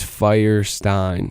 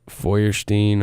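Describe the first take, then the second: First: The name is said with an English pronunciation. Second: The name is said with a German pronunciation. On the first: "it's Firestein" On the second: "it's actually um like German. I think it's pronounced like Feuerstein"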